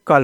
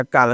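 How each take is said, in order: First: कल with a short uh; correct pronunciation. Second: काल with a long aa; wrong pronunciation. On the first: Teacher settles the doubt for learners, correct short कल. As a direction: keep कल short, as kal. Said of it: "यहाँ पे कल होगा". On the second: Teacher tests a learner's mistaken spelling, wrong long-aa काल. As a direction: lengthen काल to kaal. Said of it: "काल दोस्तों का शब्द है नहीं". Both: Shown as a demonstration.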